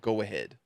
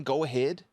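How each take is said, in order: First: Said in the usual way. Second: Disbelieving rising repeat; incredulous. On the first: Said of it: "do not respond with". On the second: Shown as a demonstration. Streamer appalled at the careless reply, incredulous rise. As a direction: ask it back like you can't believe it.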